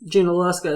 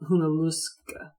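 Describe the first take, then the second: First: The name begins with a J sound. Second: The name begins with an H sound. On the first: This is the modern way of saying it. "now it is" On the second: This is closer to the original way of saying it. "is like Hunaluska"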